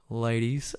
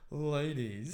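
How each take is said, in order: First: Louder, sleazy "Ladies" with a rise; cheesy pickup call. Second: Cheesy pickup line. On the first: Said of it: "If you go". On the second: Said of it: "he opened with". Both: Retold or imitated.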